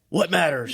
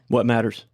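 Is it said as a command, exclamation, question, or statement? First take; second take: command; statement. First: It is said as a firm command. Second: It is said as a plain flat statement. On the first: "and as a command" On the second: "Now I need you to say it as a statement"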